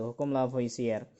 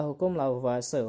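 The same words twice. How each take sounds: First: "Lavoisier" said as la-vo-i-si-er; spelling reading of "Lavoisier", la-vo-i-si-er; read as spelled. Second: "Lavoisier" said as la-vwa-se; French-style "Lavoisier", la-vwa-se; usual spoken pronunciation. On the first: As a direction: sound out each written vowel of "Lavoisier", la-vo-i-si-er. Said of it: "Meskipun tulisannya Lavoisier". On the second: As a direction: say "Lavoisier" in three syllables, la-VWA-se. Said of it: "biasanya orang bacanya itu Lavoisier". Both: Shown as a demonstration.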